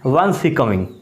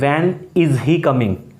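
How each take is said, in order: First: It is said in a native English accent. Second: It is said in an Indian English accent.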